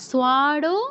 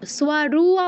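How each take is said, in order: First: The second syllable ends in an 'o' vowel. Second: The second syllable ends in an 'u' vowel. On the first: The speaker calls it right. "ওকারকে উকার উচ্চারণ করেন, তো ওটা করা যাবে না" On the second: The speaker calls it wrong. "সোয়ারু আবার বলতে যাব না"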